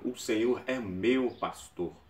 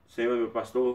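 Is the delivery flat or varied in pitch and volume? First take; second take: varied; flat. First: The pitch and volume rise and fall. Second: It is read flat, in one even tone. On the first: The speaker calls it right. "Você aumenta o tom em alguns momentos e baixa" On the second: The speaker calls it wrong. "Para de ler reto"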